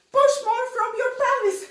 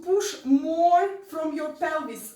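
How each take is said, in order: First: Loud, high, fast exhortation; mock over-forced pushing. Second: Said in the usual way. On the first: Dance teacher mimicking those who think harder is better, loud and strained. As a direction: overdo it, forcing out every word at high pitch. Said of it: "like this. Like, push more from".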